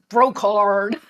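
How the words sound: The name is said with an American accent. The speaker calls it wrong. "everyone from America, Canada, that side of the world wants to call me Brocard"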